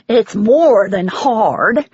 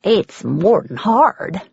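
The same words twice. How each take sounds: First: Louder, very slow, leaning on more; emphatic repeat. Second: Said in the usual way. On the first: A narrator's reading. Woman repeating her grief to the visitor, louder and slower. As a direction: hammer the word more home.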